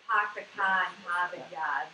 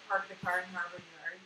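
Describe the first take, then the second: First: Dropped R's, Pahk the cah in Hahvahd Yahd; Boston accent. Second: Said in the usual way. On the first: Shown as a demonstration. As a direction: drop every R the Boston way. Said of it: "imitate a Boston accent". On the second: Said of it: "So that clip".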